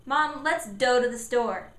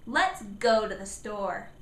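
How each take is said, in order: First: Put-on "go" said as a child's misarticulation, wrong first sound; child's sound error. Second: "go" modeled slowly with a clear hard G; slow the phrase, sound the G in "go" clearly; emphasized G sound. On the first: Child asking mom to go to the store, mispronouncing. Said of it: "repeat the, what the sentence is that he said". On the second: Parent modeling the sentence for Johnny, clear G. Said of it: "that's what go begins with". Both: Shown as a demonstration.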